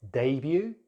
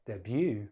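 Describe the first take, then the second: First: "Debut" as DAY-byoo; British "Debut", first syllable stressed; British pronunciation. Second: "debut" as deh-BYOO; American "debut", second syllable stressed; American pronunciation. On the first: Teacher contrasts accents, "Debut" as DAY-byoo. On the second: Teacher contrasts accents, "debut" as deh-BYOO. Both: Shown as a demonstration. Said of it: "British English or American English".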